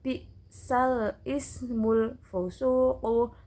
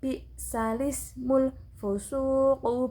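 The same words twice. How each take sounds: First: The glottal stop before ismul is kept. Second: The vowel moves back, linking into ismul.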